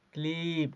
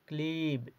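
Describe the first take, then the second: No difference in how they are said.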